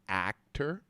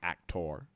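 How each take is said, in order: First: The last syllable sounds like 'er'. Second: The last syllable sounds like 'or'. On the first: The speaker calls it right. "a lot of words with O R sound like E R, like actor" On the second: The speaker calls it wrong.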